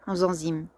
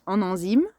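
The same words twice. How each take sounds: First: "en enzymes" linked with a z sound; z liaison. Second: "en enzymes" linked with an n sound; n liaison. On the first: Host trying out the liaison in "en enzymes", said with a z. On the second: Host correcting the liaison in "en enzymes", said with an n. Repeats the phrase, trying both liaisons. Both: Shown as a demonstration.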